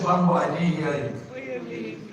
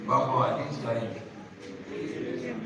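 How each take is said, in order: First: Slow, firmer call to the crowd; insistent repeat. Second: Said in the usual way. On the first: Real, not acted. Preacher calls the congregation for a response, insistent repeat. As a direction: press them for a response.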